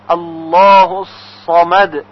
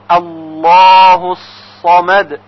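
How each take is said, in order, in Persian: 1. حرف s در «samad» سنگین و مفخم است. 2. حرف s در «samad» سنگین و مفخم است.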